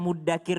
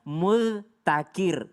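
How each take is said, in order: First: The middle consonant is a doubled plain d. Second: The middle consonant is a dh sound. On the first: This is the form used in the verse. "Muddakir di sini" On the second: This is the original form, hard to say. "sebenarnya aslinya mudzakir. Tapi susah disebutnya"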